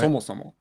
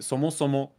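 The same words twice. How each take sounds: First: The pitch is high on the first syllable. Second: The pitch stays flat across the word. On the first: The speaker sounds formal and proper. "was atamadaka, like that" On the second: The speaker sounds casual and young. "now a lot of younger people pronounce it"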